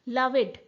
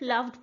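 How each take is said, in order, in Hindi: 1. अंत में d से पहले एक अतिरिक्त स्वर है। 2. अंत में केवल एक d ध्वनि है। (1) "it यूज to be लविड in that point of time" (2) "अब हम L O V E D सिर्फ लव्ड बोलते हैं"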